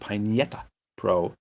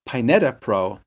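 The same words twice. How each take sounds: First: The name is said with a Spanish ñ sound. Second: The name is said with a plain n sound. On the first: This is how the speaker says it. "I say it with like there's a Spanish tilde over the end" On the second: This is how another person says it. "I think she says Pineta Pro"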